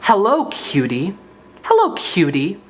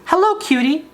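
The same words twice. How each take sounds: First: Hammed-up growled hello; mock angry. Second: High, sugary sweet greeting; syrupy cooing hello; sweetest little voice. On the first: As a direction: say it like a grumpy menacing creep. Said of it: "in a really angry way". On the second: Shown as a demonstration. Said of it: "said it in the sweetest little voice".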